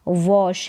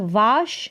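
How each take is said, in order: First: The vowel is a rounded 'aw' sound. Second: The vowel is an open 'ah' sound. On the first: The speaker calls it right. "वॉश है" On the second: The speaker calls it wrong. "यहाँ पर वाश नहीं है"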